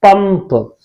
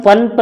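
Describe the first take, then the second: First: पंप with a held M, "pamm-p"; correct half-म. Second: पंप with an N sound, "pan-p"; wrong nasal. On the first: Teacher giving students the right reading, पंप with M. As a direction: close the lips on a half म in पंप. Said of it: "इसे हम क्या पढ़ेंगे". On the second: Teacher warning students off a misreading, पंप with N. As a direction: say पंप with half न before the final प. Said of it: "पंप नहीं पढ़ेंगे". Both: Shown as a demonstration.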